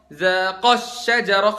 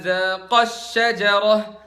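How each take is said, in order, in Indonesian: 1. Vokal panjang pada akhiran dual ditekan. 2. Vokal panjang pada akhiran dual ditekan.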